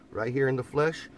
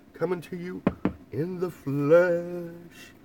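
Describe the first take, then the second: First: Said in the usual way. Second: In the flesh stretched very slow and higher; milk "in the flesh" like a showman; slow, grand, hammed-up reveal; drawn-out announcer flourish.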